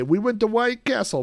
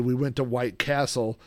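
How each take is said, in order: First: Higher, shouted rap-style lyric. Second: Said in the usual way. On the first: Retold or imitated. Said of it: "normally they would say". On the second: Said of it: "the part where they say".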